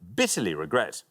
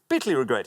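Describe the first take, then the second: First: It is read at a normal pace. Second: It is read at double speed.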